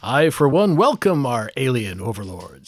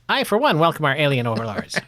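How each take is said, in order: First: It is said in a booming announcer voice. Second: It is said in an old transatlantic voice.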